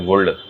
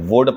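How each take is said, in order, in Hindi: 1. L बोला जाता है। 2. L साइलेंट है। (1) "वुल्ड नहीं पढ़ते" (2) "वुड पढ़ते हैं"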